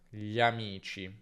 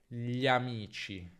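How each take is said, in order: The two takes are said the same way.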